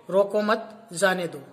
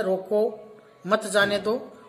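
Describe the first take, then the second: First: रोको मत together, pause, then जाने दो; slow, जाने दो set apart after the pause. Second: रोको, then a pause, मत जाने दो run together; slow, with मत joined to जाने दो; pause after रोको. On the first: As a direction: break after मत to mean let them go. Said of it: "मत के आगे लगा देते हैं". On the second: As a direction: break after रोको to mean stop them. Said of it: "सही और सटीक विराम चिन्ह से ही". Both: Shown as a demonstration.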